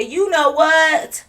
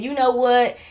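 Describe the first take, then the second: First: High, loud and very slow; drawn-out catchphrase. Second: Said in the usual way. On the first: Shown as a demonstration. Vlogger cueing viewers to finish her line, drawn-out catchphrase. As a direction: stretch it out as a cue to finish. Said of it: "When I say". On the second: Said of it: "when I said".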